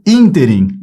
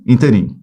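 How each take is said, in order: First: Ínterim led by a strong, long ÍN; stress on first syllable. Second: Interim ending on a stressed RIM; wrong final stress. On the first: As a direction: emphasise the start of ínterim. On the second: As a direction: put the weight last in interim. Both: Shown as a demonstration. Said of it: "ínterim e não interim".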